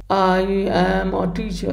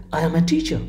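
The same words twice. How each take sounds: First: "I am a teacher" slow and level, no word standing out; drawn-out, monotone "I am a teacher"; flat demo sentence. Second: "I am a teacher" at normal pace, prominence on "teacher"; natural melody in "I am a teacher", falling on "teacher"; moment of prominence. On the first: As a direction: stretch "I am a teacher" evenly on one monotone note. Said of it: "What is this?". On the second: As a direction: let "teacher" stand out, then fall. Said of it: "The same sentence can be spoken". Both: Shown as a demonstration.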